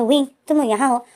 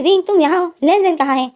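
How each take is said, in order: First: Said in the usual way. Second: Surprised. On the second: Retold or imitated. Surprised meeting, redone higher.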